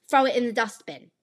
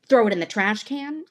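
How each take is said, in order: First: British-style accent, higher pitched; other dialect. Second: Said in the usual way. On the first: Shown as a demonstration. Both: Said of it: "A dialect is the difference between".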